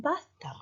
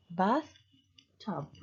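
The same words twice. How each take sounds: First: Said in the usual way. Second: "bath, tub" in two parts with a short pause; split into syllables. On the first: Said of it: "for two syllable words". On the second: Shown as a demonstration. Teacher repeats bathtub cut in parts, "bath, tub" syllable by syllable. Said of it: "you cut them two times, two parts".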